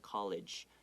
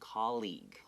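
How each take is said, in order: First: The second syllable sounds like 'ledge'. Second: The second syllable sounds like 'league'. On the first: The speaker calls it wrong. "don't say this word as college" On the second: The speaker calls it right. "那个声有个 e 的声音"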